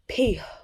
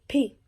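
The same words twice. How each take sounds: First: An extra sound is added at the end. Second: No extra sound is added at the end. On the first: The speaker calls it wrong. "that extra on the end, that's not, that is not the actual enunciation" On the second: The speaker calls it right. "It's actually P"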